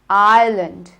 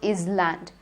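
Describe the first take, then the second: First: The S in the middle is not pronounced. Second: The S in the middle is pronounced aloud. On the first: The speaker calls it right. "The S is silent here. It's island" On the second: The speaker calls it wrong. "It is not Island"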